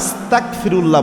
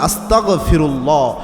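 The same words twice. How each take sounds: First: The consonant before 'firullah' is a k sound. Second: The consonant before 'firullah' is a gh sound. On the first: It comes to mean committing disbelief. The speaker calls it wrong. "ক দিয়ে উচ্চারণ করে।" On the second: It means asking for forgiveness. The speaker calls it right. "গ দিয়ে উচ্চারণ করবেন"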